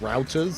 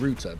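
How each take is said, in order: First: The word router is said American style. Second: The word router is said non-American style. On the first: "but Americans call it routers" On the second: "I called them a router"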